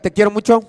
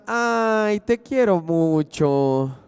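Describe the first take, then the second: First: It sounds angry and harsh. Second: It sounds tender and affectionate.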